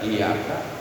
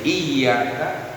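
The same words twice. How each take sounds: First: The middle consonant is single and short. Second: The middle consonant is doubled and held long. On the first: The speaker calls it wrong. "nggak ditasdidkan itu robah maknanya" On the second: The speaker calls it right. "tasdid itu harus benar-benar nempel"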